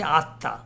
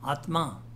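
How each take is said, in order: First: The middle sounds as a doubled t. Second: The middle sounds as t followed by m.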